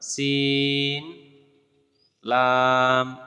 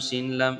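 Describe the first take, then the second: First: Each name is drawn out with a pause between. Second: The two names are run together quickly. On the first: The speaker calls it right. "আলাদা আলাদা হরফ ধরে ধরে পড়াবেন" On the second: The speaker calls it wrong. "এভাবে পড়াবেন না"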